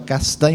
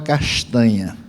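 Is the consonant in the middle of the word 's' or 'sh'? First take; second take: s; sh. First: The middle consonant is a plain s sound. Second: The middle consonant is a sh sound. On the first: One tribe's way of speaking. "Um falava s" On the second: The other tribe's way of speaking. "o outro falava sh"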